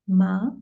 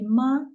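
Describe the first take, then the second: First: The pitch rises from mid to high. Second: The pitch stays high and level. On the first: It means linen or hemp. "second tone" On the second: It means mother. "it means mother or mama"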